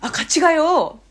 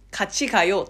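First: Higher, coaxing invitation with stretched ending; friendly emphatic nudge. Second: Neutral, careful recitation; flat, tidy textbook. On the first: Closing the distance with someone, eagerly coaxing. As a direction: urge them along brightly, stretching the end. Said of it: "っていう風に言った方が絶対にいい". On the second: What no Korean really says, flat textbook delivery. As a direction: recite it evenly without any push. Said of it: "綺麗に言うから". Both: Shown as a demonstration.

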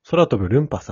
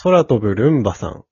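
First: "ルンパ" said with a clear p; corrected name. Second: "ルンバ" said with a voiced b; misread name. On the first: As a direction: reread it as "ルンパ", with a p sound. (「ルンパ」とpではっきり言い直す) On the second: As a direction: reads it as "ルンバ", with a b sound. (「ルンバ」とbで読み間違える) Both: Real, not acted.

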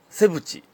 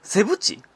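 First: セブチ said with the pitch of 江口; セブチ rising like 江口, said as a plain statement. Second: セブチ tried high, as a puzzled question; testing セブチ with the pitch of 田中. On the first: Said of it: "[name]の音程でした". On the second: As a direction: try セブチ with the Kansai 田中 tone. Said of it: "[name]と同じ音程？". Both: Shown as a demonstration.

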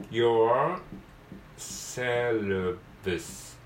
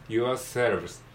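First: Yourselves split as "your", long pause, drawn-out "selves"; broken into parts. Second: Said in the usual way. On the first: Shown as a demonstration. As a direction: sound out yourselves piece by piece, very slowly. Teacher breaks the word into parts.

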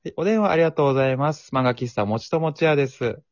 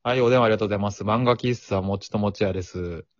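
First: Bright, higher polite phone greeting; customer service voice. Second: Flat, offhand shop clerk; curt clerk. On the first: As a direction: answer like a cheerful shop clerk. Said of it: "ちょっともう一回やります". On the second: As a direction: answer the phone like you couldn't care less. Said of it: "店員がこの態度だったらそうなるな". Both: Pretend.

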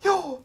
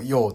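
First: High よー on an indrawn breath; inhaled speech. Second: Said in the usual way. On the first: Shown as a demonstration. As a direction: native Finnish gasped よー. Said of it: "これがやっぱネイティブなんですよね". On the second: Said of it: "でも言うんよ".

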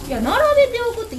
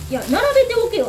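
First: Higher, louder, fast puzzled repeat; puzzled echo. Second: Higher and louder, barking an order; rude order. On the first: Shop owner repeating the odd order back to herself, bewildered. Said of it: "一個ずつ置くんかと思って". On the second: The customer bossing the shop owner about, a gruff mock order. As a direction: play the pushy customer ordering her about. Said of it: "って言われたんですね". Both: Retold or imitated.

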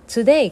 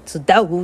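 First: Said in the usual way. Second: Put-on "つっだお" as a British-accented "today"; imitated British pronunciation of "つっだお". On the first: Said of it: "トゥデイがちょっとイギリスなまりで". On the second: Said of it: "ちょっとイギリスなまりで".

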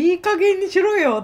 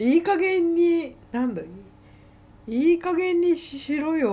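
First: High, loud scolding mother; angry mother. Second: Leisurely scolding. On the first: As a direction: snap like a fed-up mother. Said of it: "って言ってた、お母さん". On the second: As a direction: scold lazily, stretching it out. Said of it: "のんびり". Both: Retold or imitated.

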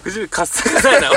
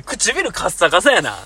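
First: Laughing parody of the fake Kansai line; mocking fake Kansai. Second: 唇カッサカサやな said slowly, word by word; slow deliberate. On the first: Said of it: "エセ関西弁っぽく". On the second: Shown as a demonstration. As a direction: spell out 唇カッサカサやな slowly to show how it lands. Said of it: "女の子に対して言うのは結構あれやからな".

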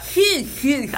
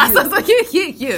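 First: Impression call. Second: Higher, louder "ヒューヒューヒュー" with a laugh; impression call. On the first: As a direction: fire off "ヒューヒューヒュー" like a playful reply. ([name]の返事を笑いながら真似して) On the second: (笑いながら[name]の返事を真似して) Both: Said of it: "返事する時".

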